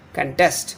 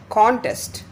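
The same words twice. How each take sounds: First: Contest with the stress on -TEST; conTEST, reduced first syllable, strong second; verb stress. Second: Contest with a high, strong CON; CONtest, open first syllable stressed. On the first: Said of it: "difference between the pronunciation of the noun and the verb". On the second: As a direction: say Contest as the noun, hitting con-. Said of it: "Con is stressed". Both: Shown as a demonstration.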